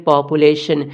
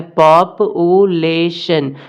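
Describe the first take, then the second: First: Said in the usual way. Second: पॉप-ऊ-ले-शन slowly, with a clear break after each syllable; slow syllable split. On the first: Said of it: "ये चारों मिलके बन जाएंगे पॉपुलेशन". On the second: Shown as a demonstration. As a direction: spell out पॉप-ऊ-ले-शन one beat per syllable, slowly. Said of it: "इसमें चार part हमें मिल रहा है".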